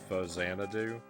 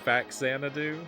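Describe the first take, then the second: First: The middle x is sounded as z. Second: The middle x is sounded as ks. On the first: The name blends Famicom and Xanadu. "a combination of the words Famicom and Xanadu" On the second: It follows the usual English rule for a middle x. "it should be Faxanadu if the X is in the center"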